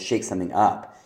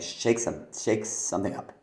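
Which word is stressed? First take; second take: up; shake. First: The stress falls on the word up. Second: The stress falls on the word shake. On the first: The speaker calls it right. "you're going to shake something up" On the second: The speaker calls it wrong. "You're not going to shake something up"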